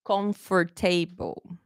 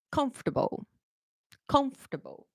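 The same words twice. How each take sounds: First: Slow comfortable as kom-for-TAY-bul; common mispronunciation. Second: Comfortable said softly as KUMF-tuh-bul; correct pronunciation. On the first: Teacher imitates learners' mistake, mispronounced slowly. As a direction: sound out every syllable of comfortable, ending in TABLE. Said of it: "Let me tell you what I hear a lot". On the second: Teacher models the word for students, correct pronunciation. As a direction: stress the start of comfortable, reduce the ending. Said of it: "going to pronounce the words correctly". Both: Shown as a demonstration.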